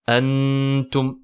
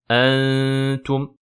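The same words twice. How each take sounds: First: The n is pronounced clearly and fully. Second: The n is hidden in a light nasal hum. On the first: The speaker calls it wrong. "Ne pas faire de idhar. On ne dit pas" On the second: The speaker calls it right. "mais plutôt ... la runna est amincie"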